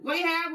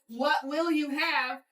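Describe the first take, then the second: First: It is shouted, run together, in a Southern accent. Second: Each word is said fully in a neutral accent. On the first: "If you don't speak Southern, ... what they're going to say to you is" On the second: "I'm going to say it all as it as you should hear it"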